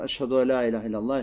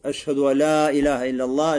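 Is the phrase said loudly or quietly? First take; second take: quietly; loudly. First: The phrase is said quietly. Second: The phrase is said loudly. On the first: Only the caller hears it. "Это говорит человек тихо" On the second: The people can hear it. "Повторяешь громко. Теперь так, что уже слышат люди"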